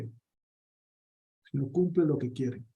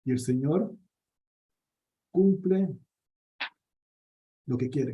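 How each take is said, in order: First: "El Señor cumple lo que quiere" said very slowly and softly, leaning on "cumple"; slow, soft emphasis. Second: Said in the usual way. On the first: Real, not acted. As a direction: let each word land slowly, quietly and firmly. Repeats the conviction slowly and softly. (despacio y en voz baja, recalcando "cumple")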